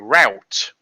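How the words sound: It is said with an American pronunciation. The speaker calls it wrong. "the way that Americans say route"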